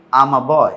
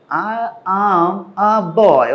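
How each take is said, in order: First: Said in the usual way. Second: Very slow, higher, each word stretched; talking to a child. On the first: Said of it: "natural flat টোনে". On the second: Acted. Someone talking to a child, slow careful words. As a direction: spell it out slowly for a small child. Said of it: "একটা বাচ্চার সাথে কথা বলছে".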